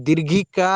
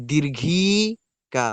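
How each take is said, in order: First: ଦୀର୍ଘିକା with the final କା held as a long "aa"; stretched final ā. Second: ଦୀର୍ଘିକା very slow, ଘି held long and rising before କା; stretched middle i. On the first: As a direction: lengthen the last vowel of ଦୀର୍ଘିକା. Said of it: "କା ଉଚ୍ଚାରଣ କଲାବେଳେ ଆ ହିଁ ଉଚ୍ଚାରଣ ହୁଏ". (ଦୀର୍ଘିକାର ଶେଷ କା କୁ ଲମ୍ବେଇ "ଆ") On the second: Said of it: "ମଝିରେ ଇ ଉଚ୍ଚାରଣ ହଉଛି". (ଦୀର୍ଘିକାର ମଝି "ଇ" କୁ ବହୁତ ଲମ୍ବେଇ) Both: Shown as a demonstration.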